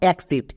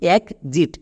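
First: The x is pronounced with a ks sound. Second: The x is pronounced with a gz sound. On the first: The speaker calls it wrong. "Not এক্সিট। এক্সিট উচ্চারণ করবো না।" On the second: The speaker calls it right. "এখানে কিন্তু এক্স এর জন্য গোয়ে বর্গীয় জো sound পাচ্ছি"

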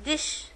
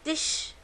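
The two takes are said the same way.

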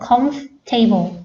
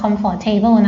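First: The middle 'or' vowel is dropped entirely. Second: The middle 'for' syllable is fully pronounced. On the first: The speaker calls it right. "มันต้องออกเสียงว่า ... ตรงนี้ไม่ต้องออกเสียงนะคะออกเสียงแค่ comf แล้วก็ table" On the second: The speaker calls it wrong. "ห้ามอ่านว่า"

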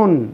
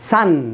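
First: The vowel is a rounded o sound. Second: The vowel is an open, ah-like sound. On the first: The speaker calls it wrong. "هذه ما بتنطقهاش sun" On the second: The speaker calls it right. "sun اللي هنا بتنطقها كأنها فتحة"

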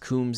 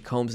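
First: The vowel sounds like the one in 'tombs'. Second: The vowel sounds like the one in 'home'. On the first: The speaker calls it right. "I think it's really supposed to be pronounced Coombs, as in, like, rhyming with tombs" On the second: The speaker calls it wrong. "I pronounced it Combs in the episode"

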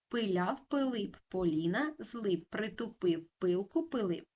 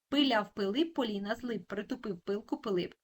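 First: It is spoken at a slow pace. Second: It is spoken at a moderate pace. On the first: "Повільно" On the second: "Тепер трошки швидше"

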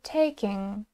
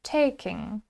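The two takes are said the same way.

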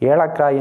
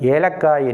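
First: The middle consonant is not a plain 'l'. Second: The middle consonant is a plain 'l'. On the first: The speaker calls it wrong. "ஏலக்காய் என்று சொல்லக்கூடாது" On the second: The speaker calls it right. "லா லகரத்தை தான் சொல்ல வேண்டும்"

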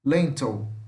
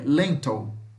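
Both takes have the same delivery.

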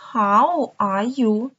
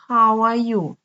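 First: The phrase is said slowly and carefully. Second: The phrase is said quickly and run together.

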